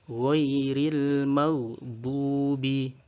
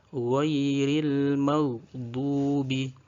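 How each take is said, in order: The two takes are said the same way.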